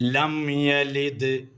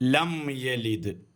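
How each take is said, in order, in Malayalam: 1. yalid-ന് മുമ്പ് 'm' ചുണ്ടുകൾ അടച്ചാണ് പറയുന്നത്. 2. yalid-ന് മുമ്പ് 'm' ചുണ്ടുകൾ അടച്ചാണ് പറയുന്നത്.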